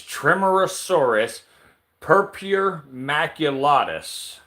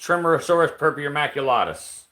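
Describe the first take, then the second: First: The name is said at a normal, careful pace. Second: The name is said quickly, run together.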